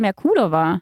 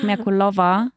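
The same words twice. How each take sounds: First: The stress is on the 'ku' syllable. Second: The stress is not on the 'ku' syllable. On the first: The speaker calls it right. "Und ich so auf U" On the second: The speaker calls it wrong. "wie schlimm ich finde, wenn man zu mir sagt Merkulova? Das ist falsch"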